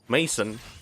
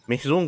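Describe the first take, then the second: First: It is said like the English name Mason. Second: It is said with a French vowel sound. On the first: The speaker calls it wrong. "if it's in English like regular English they would say" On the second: The speaker calls it right. "it's actually pronounced"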